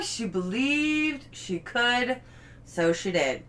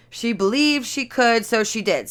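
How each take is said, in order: First: Slow, tender read of the quote; slow heartfelt reading. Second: Said in the usual way. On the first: Shown as a demonstration. Reading the board quote to viewers: slow tender read. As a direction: savor each word like a gift. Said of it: "reading finished board, slow". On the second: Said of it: "first reading of quote".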